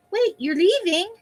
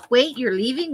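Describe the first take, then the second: First: High and slow, pleading; high drawn-out voice. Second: Said in the usual way. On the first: Pretend. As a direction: stretch it out, voice up high. Rereading the clipping in a voice.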